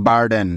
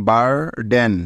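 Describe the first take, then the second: First: Said in the usual way. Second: বারডেন drawn out, বার held, then ডেন; split into syllables. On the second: Shown as a demonstration. Teacher showing learners the break, syllable by syllable. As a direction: break বারডেন after বার, keeping both parts separate. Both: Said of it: "একবার থামতে হচ্ছে".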